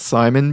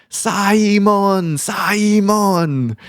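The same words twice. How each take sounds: First: Said in the usual way. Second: Simon as Sai-mon with an extra syllable; Korean pronunciation. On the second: Retold or imitated. Boss calling her employee, Korean-accented Simon. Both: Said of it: "how a lot of the Koreans pronounce Simon".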